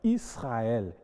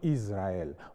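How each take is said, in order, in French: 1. Le s est un son s sifflant. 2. Le s est un son z bourdonnant. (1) "on dira par exemple Israël" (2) "et non Israël"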